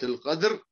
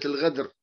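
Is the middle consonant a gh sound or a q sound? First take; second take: q sound; gh sound. First: The middle consonant is a deep q sound. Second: The middle consonant is a gh sound.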